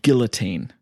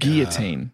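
First: It is said with the British English pronunciation. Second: It is said with the American, French-style pronunciation. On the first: This is the band's name. The speaker calls it right. "So we were called Guillotine" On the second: This is not the band's name. The speaker calls it wrong. "Americans sometimes, they use the French version"

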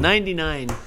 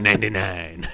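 First: It is said in a normal voice. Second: It is said in a funny put-on voice.

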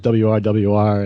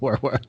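First: The name is spelled out as separate letters. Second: The name is said as one short word. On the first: This was the original way the group's name was said. "at first it was WRWR" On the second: This is the later, shortened way the group's name is said. "and then it became Werwer"

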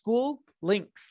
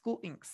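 First: The second part sounds like the word links. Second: The second part sounds like the word inks. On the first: The speaker calls it wrong. "I thought it was SchooLinks, like links" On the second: The speaker calls it right. "SchooLinks, like a squid"

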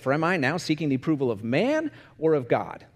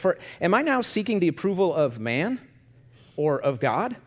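First: It sounds like a choice, falling at the end. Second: It sounds like a yes-no question, rising at the end.

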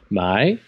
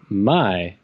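First: The pitch of the word rises. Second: The pitch of the word falls. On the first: It means to buy. "my with like an upward inflection" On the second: It means to sell. "my with a downward inflection"

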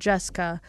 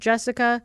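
First: The middle vowel is dropped, giving two syllables. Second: The name is said with three full syllables. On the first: "Never done the I. It's just Jessica" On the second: "I'm trying to say it correctly right now"

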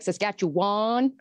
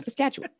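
First: It is said with an Ontario-style pronunciation. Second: It is said with the local pronunciation. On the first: This is how outsiders from Ontario say it. The speaker calls it wrong. "Ontarioans are like Saskatchewan" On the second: This is how locals say it. The speaker calls it right. "No, Saskatchewan"

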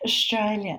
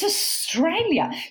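First: It is mumbled with a tight jaw. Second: It is articulated clearly with an open mouth. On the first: The speaker calls it wrong. "when she was stressed, she'd say" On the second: The speaker calls it right. "It's Australia"

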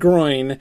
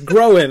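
First: The name is said like the English word groin. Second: The name is said unlike the English word groin. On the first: The speaker calls it wrong. "not Groin" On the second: The speaker calls it right. "It's Groin, of course"

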